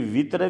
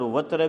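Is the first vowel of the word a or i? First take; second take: i; a. First: The first vowel is an i sound. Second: The first vowel is an a sound. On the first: "ये वित्र भी मैं आपको बता रहा था" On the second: "और वत्र भी, दोनों ये सही है"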